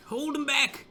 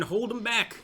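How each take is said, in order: First: Much higher, pleading shout; desperate high rallying cry. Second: Raised, urgent call to the troops; rallying the men, a raised call. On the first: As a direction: beg them to hold, voice climbing high. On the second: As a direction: push them to hold the line. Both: Real, not acted. Urging troops on in battle.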